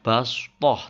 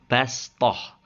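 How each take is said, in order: First: The s sound is emphatic and heavy. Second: The s sound is plain and light. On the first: The speaker calls it wrong. "Jadi membacanya bukan bastoh" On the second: The speaker calls it right. "tapi bastoh. Sin dibacanya ya"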